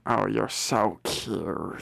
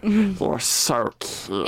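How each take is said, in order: First: Slow, soft, low rasp; cooing witch. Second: Cooing witch. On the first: Witch admires the cute visitor, creepy slow coo. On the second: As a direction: draw out the compliment, creepy and lilting. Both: Acted.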